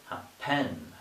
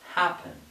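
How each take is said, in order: First: The stress is on the second syllable. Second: The stress is on the first syllable. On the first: The speaker calls it wrong. "I would not say happen" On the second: The speaker calls it right. "it is happen, syllable on the first one"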